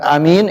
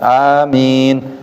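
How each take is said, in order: First: The first vowel is kept short. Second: The first vowel is held long. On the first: Trustworthy. The speaker calls it wrong. "Bukan amin, itu beda maknanya" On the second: O God, grant our prayers. The speaker calls it right. "hanya panjang"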